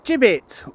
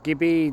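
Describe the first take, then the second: First: The final T is clearly pronounced. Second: The final T is dropped entirely. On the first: "if you pronounce the T" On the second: "or not"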